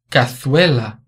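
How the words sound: The z is pronounced as a th sound. This is how it is said in Spain.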